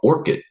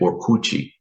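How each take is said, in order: First: The name is said with an English pronunciation. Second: The name is said with a Brazilian pronunciation.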